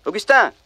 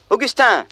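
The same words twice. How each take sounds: First: High call across the room. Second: Higher, more insistent call; calling out again. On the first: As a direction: call the servant's name. Prince calls his servant. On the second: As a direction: call his name once more, pushing harder. Calls him a second time. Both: Acted.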